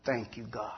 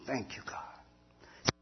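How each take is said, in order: First: Said in the usual way. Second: Slow, breathless whisper to heaven; whispered thanks. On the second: Real, not acted. Grateful prayer in police car.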